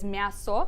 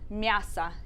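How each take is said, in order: First: The final vowel sounds like a full 'o'. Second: The final vowel sounds like an 'a'. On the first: "it seems like it would be read as" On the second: "that O sometimes sounds like an A"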